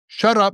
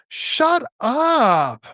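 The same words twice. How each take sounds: First: It is said as a stern, firm command. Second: It is said with amazed, disbelieving surprise. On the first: The listener should stop talking. "you get from my tonality that I want you to be quiet" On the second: The speaker can hardly believe what was said. "I'm not telling you to be quiet. It's a disbelief"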